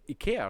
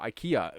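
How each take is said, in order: First: IKEA is said with a non-English pronunciation. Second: IKEA is said with the English pronunciation.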